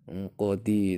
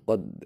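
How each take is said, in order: First: The word ends with a short vowel after d. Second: The word ends with a bouncing, echoing d.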